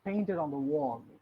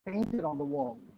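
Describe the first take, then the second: The two takes are said the same way.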